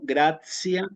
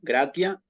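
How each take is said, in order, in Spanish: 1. La t se pronuncia como un sonido suavizado. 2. La t se pronuncia como una t dura. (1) "en latín eclesiástico" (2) "latín clásico"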